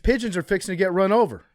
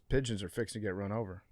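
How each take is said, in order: First: It is said loudly, like an exclamation. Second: It is said flatly, like a plain statement. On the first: The speaker calls it wrong. "I put the wrong inflection on that" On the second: The speaker calls it right. "just a statement of fact"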